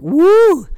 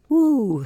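First: The word is said with excited, high energy. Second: The word is said flatly, with little energy. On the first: The passion is fresh and strong. "The passion at the beginning is like" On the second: The passion has faded over time. "And then a couple years in, you're like"

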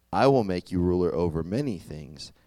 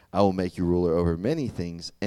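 Both takes have the same delivery.

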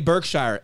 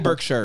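First: Berkshire is said the Denver, Midwest way. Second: Berkshire is said the British, old English way.

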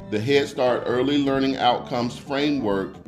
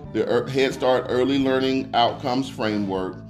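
The two takes are said the same way.

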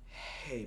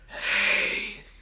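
First: It is said plainly, without extra breath. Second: It is said with an extra, heavy breath.

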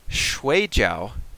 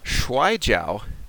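First: It is said with the tones of 'dumpling'. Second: It is said with the tones of 'wrestling'. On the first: It means a type of dumpling. "shui jiao is a type of dumpling" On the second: It means the wrestling martial art. "Shui jiao is the wrestling"

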